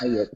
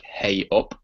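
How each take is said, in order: First: "A up" said like "ay up", not "hey up"; Yorkshire "ey up". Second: "Hey up" with a clear h sound; "Hey up" as it's spelt; plain "hey up". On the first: Brit spelling out the Yorkshire greeting, "A up". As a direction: drop the h, "A up". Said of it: "it's spelt E Y U P". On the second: Brit contrasting the spelt form "Hey up". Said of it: "but we say". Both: Shown as a demonstration.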